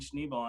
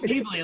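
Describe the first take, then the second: First: The name ends with a short 'bel' sound. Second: The name ends with a long 'blee' sound. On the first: The speaker calls it wrong. "I've been saying Schneebel and I pronounced it totally wrong" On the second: The speaker calls it right. "like School of Rock Schneebly"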